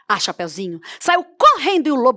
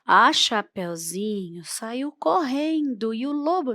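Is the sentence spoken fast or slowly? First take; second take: fast; slowly. First: The sentence is spoken at a fast pace. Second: The sentence is spoken at a slow pace. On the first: The speaker calls it right. "a gente pode imprimir um ritmo mais acelerado" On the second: The speaker calls it wrong. "não convém falar assim"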